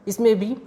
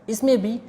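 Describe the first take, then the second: Both takes have the same delivery.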